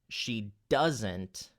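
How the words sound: The stress falls on the word doesn't. "I wanted to accent the word doesn't"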